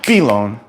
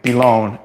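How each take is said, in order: First: The stress is on the first syllable. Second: The stress is on the second syllable. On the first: The speaker calls it wrong. "not pilon" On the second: The speaker calls it right. "we're saying pilon, ... So the emphasis is on the second step"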